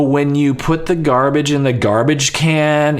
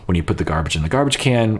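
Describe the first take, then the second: First: It is said in a sharp, irritated tone. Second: It is said in a calm, relaxed tone. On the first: The speaker is annoyed with the listener. The speaker calls it wrong. "hey, tone" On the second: It is a friendly request with no blame. The speaker calls it right. "word it a little differently and with no tone"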